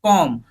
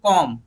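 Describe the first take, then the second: Both takes have the same delivery.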